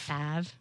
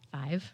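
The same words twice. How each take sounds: First: It is said in a Southern US accent. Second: It is said in a neutral American accent. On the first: "Say it Southern" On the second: "Say it say it normal"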